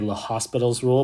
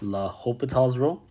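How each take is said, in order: First: The name is said with an s sound. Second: The name is said without an s sound. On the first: The speaker calls it wrong. "people like to say Le Hospital's rule, but it's really not" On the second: The speaker calls it right. "It's L'Hopital's rule"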